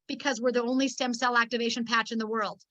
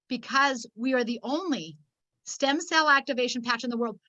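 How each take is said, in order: First: It is said at a normal pace. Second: It is said slowly and deliberately.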